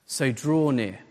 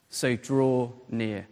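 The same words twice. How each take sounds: First: Said in the usual way. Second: "so draw near" drawn out low and soft; slow emphasis. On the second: Real, not acted. Preacher repeats his first point to the church, slow and deliberate. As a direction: linger on each word of "so draw near".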